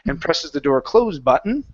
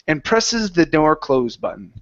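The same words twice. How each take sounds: First: The pitch rises toward the end. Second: The pitch falls toward the end. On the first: It sounds like a question. The speaker calls it wrong. "when you pop up with your intonation" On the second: It is a plain statement. The speaker calls it right. "it comes down towards the end of the sentence"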